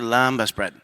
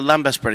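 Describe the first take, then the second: First: The vowels are drawn out and lengthened. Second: The vowels are said short and clipped. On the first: The speaker calls it right. "elongate lembas bread" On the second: The speaker calls it wrong. "So I would say the lembas bread"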